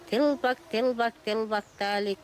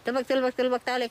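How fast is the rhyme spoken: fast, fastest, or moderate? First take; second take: moderate; fastest. First: The rhyme is spoken at a moderate pace. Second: The rhyme is spoken at the fastest pace.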